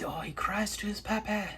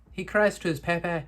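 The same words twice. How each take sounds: First: Whispered, high and pitying: oh, he cries to his papa; hushed, teasing sympathy; mock pity whisper. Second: Said in the usual way. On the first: Real, not acted. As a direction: whisper it like a sad secret.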